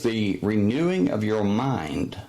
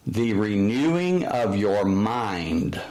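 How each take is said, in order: First: Said in the usual way. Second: "The renewing of your mind." said slowly, leaning on "renewing"; slow quoted scripture. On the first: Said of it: "The Apostle Paul says". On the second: Shown as a demonstration. Preacher quoting the Bible, slow weight on "renewing". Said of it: "I quote the Bible".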